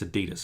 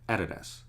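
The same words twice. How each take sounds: First: It is said the American way. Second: It is said the Australian way.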